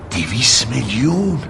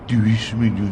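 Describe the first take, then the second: First: It is said openly, without rounded lips. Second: It is said with the lips rounded. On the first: The amount seems very large. The speaker calls it wrong. "اینجوری که میگی خیلی زیاد به نظر میاد" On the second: The amount seems small. The speaker calls it right. "لباتو لوله کن ببین"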